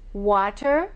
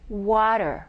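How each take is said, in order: First: The T is a crisp, clear T. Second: The T is a quick D-like tap.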